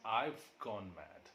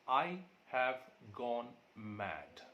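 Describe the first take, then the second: First: The word 'have' is reduced to 've. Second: The word 'have' is said in full.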